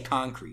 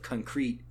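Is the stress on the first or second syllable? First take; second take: first; second. First: The stress is on the first syllable. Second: The stress is on the second syllable. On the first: It refers to the paving material. "I still say concrete" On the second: It refers to a solid, specific idea. "I'll say something more along the lines of concrete"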